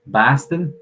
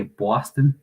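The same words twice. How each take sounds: First: Higher, louder imitation of a Boston accent; put-on Boston pronunciation. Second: Imitating a New York accent; put-on New York pronunciation. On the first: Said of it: "people from Boston would say". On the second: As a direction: say it like a New Yorker. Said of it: "people from New York".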